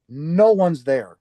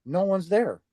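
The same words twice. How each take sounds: First: "No one's there" stretched slowly, leaning on "No"; drawn-out emphasis. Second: Said in the usual way. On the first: Retold or imitated. Telling of the empty doorway, "No one's there" slow and emphatic. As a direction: draw out "No one's there" at half speed.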